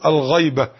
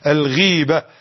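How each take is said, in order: First: The first vowel is the diphthong 'ay'. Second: The first vowel is a long 'ee'. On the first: It means absence, the opposite of presence. The speaker calls it wrong. "وبعض أحبابنا يقول الغيبة خطأ لغوي" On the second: It means backbiting. The speaker calls it right. "والنطق الصحيح كما تعلم أنت الغيبة"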